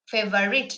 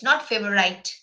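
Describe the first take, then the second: First: The last syllable is short, like 'rit'. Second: The last syllable is long, like 'rite'. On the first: The speaker calls it right. "the proper way of uh, pronouncing it is that favorite" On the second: The speaker calls it wrong. "R I T E doesn't mean that you need to say favorite"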